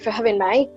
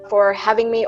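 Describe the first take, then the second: First: It is spoken in an Australian English accent. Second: It is spoken in an American English accent. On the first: "And Australian"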